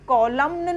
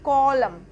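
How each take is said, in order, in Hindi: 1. अंतिम n की आवाज़ बोली जाती है। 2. अंतिम n की आवाज़ साइलेंट है। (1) "कॉलम्न नहीं होता" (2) "क्योंकि एन हमारा साइलेंट होगा"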